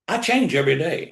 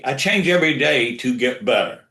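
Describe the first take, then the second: First: "change" hit with a rising tune; stress on change. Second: "change" punched, falling finish; stress on change. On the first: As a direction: lean on "change", lift at the end. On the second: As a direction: press on "change" and let the line fall. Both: Shown as a demonstration. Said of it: "Let me, let me say that again".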